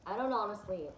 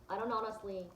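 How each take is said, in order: Both takes have the same delivery.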